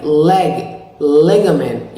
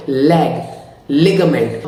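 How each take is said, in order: First: "leg, ligament" with a lazy, dark L; slow, loose tongue on "leg, ligament"; American L. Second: "leg, ligament" with a hard, light L; Indian-accented L. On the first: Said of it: "keep your tongue at a cooler". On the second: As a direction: stiff tongue tip on "leg, ligament". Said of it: "in Indian accent". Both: Shown as a demonstration.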